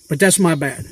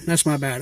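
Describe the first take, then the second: First: Said in the usual way. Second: A muttered second admission, trailing off; quiet repeat. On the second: Real, not acted. To viewers, repeating the admission quietly to himself. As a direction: drop it softer, half to yourself. Admitting fault about boat trade.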